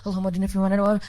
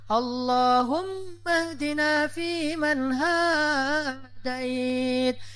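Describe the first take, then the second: First: It is said fast and rushed. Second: It is said slowly and relaxed.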